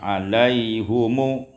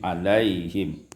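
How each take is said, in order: First: The h carries a u vowel, ending in -mu. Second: The h carries an i vowel, ending in -m. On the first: The word is joined to the next word. "Kalau diwasalkan didhammahkan ha" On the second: The reader stops on the word. "Kalau diwaqafkan tetap seperti riwayat Hasim"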